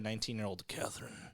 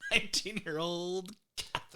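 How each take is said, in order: First: It is said in a plain, normal voice. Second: It is said in a put-on, suggestive voice. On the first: The speaker calls it right. "it's better" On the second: The speaker calls it wrong. "Don't do the voice"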